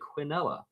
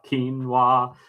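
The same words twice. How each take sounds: First: The word is said with a British pronunciation. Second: The word is said with an American pronunciation. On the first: "If you go to Great Britain, they'll say quinoa" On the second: "is the American pronunciation"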